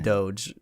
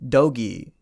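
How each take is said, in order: First: The g is a soft g sound. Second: The g is a hard g sound. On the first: The speaker calls it right. "G is like a giraffe" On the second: The speaker calls it wrong. "he pronounced it Dogi, and I thought that that cannot be right"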